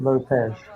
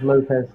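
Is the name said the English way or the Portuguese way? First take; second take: Portuguese; English. First: The name is said with a Portuguese pronunciation. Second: The name is said with an English pronunciation.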